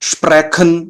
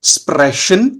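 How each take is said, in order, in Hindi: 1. ch गले से निकलने वाली कठोर kh ध्वनि है। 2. ch हल्की फुफकार वाली sh जैसी ध्वनि है। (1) "ये गलत है" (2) "ये साउंड कर रहा है श"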